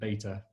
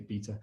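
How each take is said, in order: First: It is said with an American accent. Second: It is said with a British accent.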